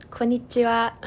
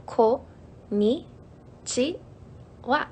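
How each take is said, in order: First: Said in the usual way. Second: "Ko, ni, chi, wa" said one syllable at a time. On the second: Shown as a demonstration. Streamer teaching viewers a Japanese hello, syllable by syllable. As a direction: break "Ko, ni, chi, wa" into separate syllables with pauses. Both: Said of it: "it's pretty simple".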